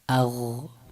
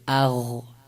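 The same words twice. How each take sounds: First: The final consonant is soft and its sound continues. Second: The same.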